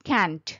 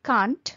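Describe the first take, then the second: First: It is pronounced with an American English accent. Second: It is pronounced with a British English accent. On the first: "American ইংলিশে বলে ক্যান্ট" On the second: "British ইংলিশে বলে কান্ট"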